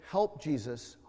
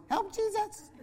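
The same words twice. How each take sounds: First: Low, soft prompting voice; quietly feed a child the words; hushed, lowered undertone; retold whisper. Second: Tiny, very high, soft squeak; high little kiddie voice; little child's voice. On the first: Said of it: "I whispered and said". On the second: Retold or imitated. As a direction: imitate a small child piping up. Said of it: "I would hear this little voice".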